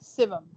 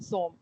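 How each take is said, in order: First: It is said as two syllables, sivam. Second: It is said as one syllable, som. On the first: The speaker calls it right. "सीन, वाओ, मीम सिवम" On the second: The speaker calls it wrong. "आपने जो लिखा आया उसके मुताबिक पढ़ दिया"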